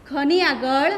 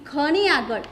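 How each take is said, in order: No difference in how they are said.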